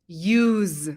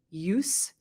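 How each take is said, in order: First: The word ends with a buzzing z sound. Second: The word ends with a hissing s sound. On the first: It is usually a verb. "with a z sound at the end" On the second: It is a noun. "Sometimes the pronunciation is use as a noun"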